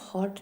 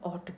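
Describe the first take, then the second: First: The word starts with an h sound. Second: The word starts with a vowel sound. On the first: The speaker calls it wrong. "हॉट नहीं बोलते हैं" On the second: The speaker calls it right. "ऑट बोलते हैं"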